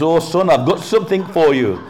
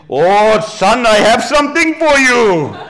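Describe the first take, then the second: First: High, loud imitation of a British man; British accent. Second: High, loud, slow hammed-up Anglo-Indian voice; Anglo-Indian accent. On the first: British guy offers the boy a package, in an imitated British accent. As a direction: put on a British stranger's voice, raised and loud. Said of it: "it was a British guy". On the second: Preacher jokes as an Anglo-Indian relative, hammed-up Anglo-Indian accent. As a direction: draw it out loudly in a comic Anglo-Indian accent. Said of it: "my other Anglo-Indian".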